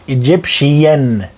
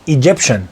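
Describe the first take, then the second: First: The ending is said as two syllables, shee-an. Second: The ending is said as one syllable, shun. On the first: The speaker calls it wrong. "ما تقوليش ايجيبشيان. شيان دي لا" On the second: The speaker calls it right.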